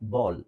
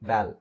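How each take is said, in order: First: The vowel sounds like the one in saw. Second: The vowel sounds like the one in cat. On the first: The speaker calls it right. "ಆದ್ರೆ ನಾನು ಇದನ್ನು ಉಚ್ಚಾರಣೆ ಮಾಡಿದ್ದು ಹೇಗೆ?" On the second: The speaker calls it wrong. "ಇವಾಗ ಇದನ್ನು ಓದ್ರೆ ಏನಾಗುತ್ತೆ?"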